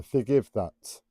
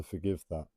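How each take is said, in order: First: "that" redone with a crisp final T; "forgive that" with the last T clearly released; careful T's. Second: Said in the usual way. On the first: Shown as a demonstration. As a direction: pronounce the T at the end of "that" deliberately. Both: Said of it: "I can't pronounce my T's at the moment properly".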